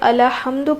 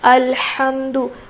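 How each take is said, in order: First: A short vowel follows the L sound. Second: The L sound closes directly without a vowel. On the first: The speaker calls it wrong. "हम अब बाज़ जगह गलती करते हैं, अलहम्दु पढ़ते हैं, हमज़ा लाम ज़बर होता है अल" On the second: The speaker calls it right. "लाम के ऊपर ज़बर नहीं है बल्कि जज़म है। तो किस तरह से पढ़ेंगे?"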